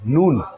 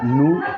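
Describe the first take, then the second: First: The final n sound is clearly pronounced. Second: The final n sound is dropped. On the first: The speaker calls it right. "नून साफ निकलना चाहिए" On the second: The speaker calls it wrong. "नू कुछ नहीं होता है"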